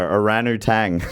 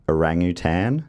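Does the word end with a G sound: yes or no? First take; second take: yes; no. First: The word ends with a G sound. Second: The G sound comes in the middle.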